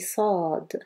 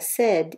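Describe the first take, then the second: First: The vowel is deep and back in the mouth. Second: The vowel is light and forward in the mouth. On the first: The speaker calls it right. "ici on dit sad" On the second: The speaker calls it wrong. "On ne dit pas sad"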